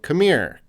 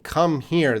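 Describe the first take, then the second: First: It is reduced and blended into one word. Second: It is said as two full, separate words. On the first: "They're saying come here" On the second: "They're not saying come here"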